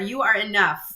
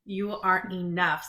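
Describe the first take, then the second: First: It is said loudly. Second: It is said at normal volume.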